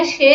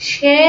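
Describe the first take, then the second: First: সে with a short closed "e", as "she"; correct closed vowel. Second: সে stretched out as "shææ"; wrong open vowel. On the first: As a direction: say সে straight, without stretching. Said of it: "সরাসরি একারের মতোই উচ্চারণ করছি". (সে না টেনে, সরাসরি এ-কার) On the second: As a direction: drag সে into a long open "æ". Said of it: "আমরা টেনে বলতেছি না". (সে টেনে স্যা-র মতো) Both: Shown as a demonstration.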